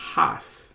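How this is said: It is said with a British pronunciation. "uma pronúncia um pouco mais britânica"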